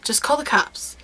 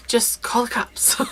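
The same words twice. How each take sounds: First: Said in the usual way. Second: Whispered, slow aside; a slow stage whisper. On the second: Shown as a demonstration. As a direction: breathe the advice like a secret. Whispered repeat of advice.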